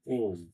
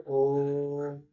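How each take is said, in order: First: Said in the usual way. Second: ओम drawn out long, the vowel held well past a normal ओ; prolonged pluta Om. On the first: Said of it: "या फिर आप ऐसे लिख लीजिए". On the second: Shown as a demonstration. Teacher showing students the extended pluta ओम, long held. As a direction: stretch ओम into a long held chant. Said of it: "अब इसका उच्चारण हम लोग ऐसे करेंगे".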